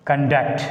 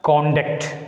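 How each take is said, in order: First: ConDUCT, stressed on the second syllable; weak CON, strong DUCT in Conduct; verb stress on second syllable. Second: CONduct, stressed on the first syllable; full O in a stressed CON of Conduct; noun stress on first syllable. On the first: Teacher demonstrating it as a verb, stress on second syllable. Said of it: "as a verb". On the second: Teacher demonstrating the noun, stress on first syllable. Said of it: "a noun takes the stress on the first syllable". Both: Shown as a demonstration.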